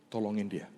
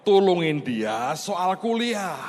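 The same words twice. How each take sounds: First: A soft, hushed voice of God; God's quiet words. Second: Slow, high and louder, every word weighed; emphatic quote of God. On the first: Tuhan's gentle hushed command. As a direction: pastor quietly quoting God's instruction, hushed. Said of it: "Tuhan ngomong begini". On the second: Pastor repeating God's instruction to the congregation, slow and emphatic. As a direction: spell out God's command. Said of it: "Tuhan ngomong apa?". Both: Retold or imitated.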